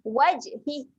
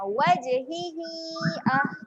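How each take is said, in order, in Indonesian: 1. Kata ini berakhir pendek, tanpa vokal yang dipanjangkan. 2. Vokal akhirnya dibaca panjang. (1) "Kalau nak berhenti eh, ... bunyi huruf ha ni kita matikan saja, tak perlu panjangkan" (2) "Kalau nak sambung, kita kena baca panjang dekat sini sebanyak empat harokat"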